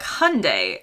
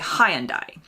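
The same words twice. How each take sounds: First: It is said with an American pronunciation. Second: It is said with a British pronunciation. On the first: "the Americans say it differently, like Hyundai" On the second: "many Brits say Hyundai"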